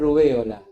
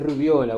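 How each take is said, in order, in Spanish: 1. La e y la o son sílabas separadas. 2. La e se vuelve una i que se desliza hacia la o. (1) "la palabra es rubéola" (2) "Es rubiola, bueno, está generalizado"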